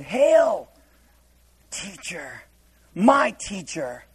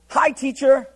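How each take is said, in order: First: Mock the stiff old-fashioned greeting; solemn pious greeting. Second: Breezy everyday hello, pitched higher; casual hi. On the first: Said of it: "Hail doesn't mean like this kind of hail". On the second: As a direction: say it like greeting a friend. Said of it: "It means hi". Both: Shown as a demonstration.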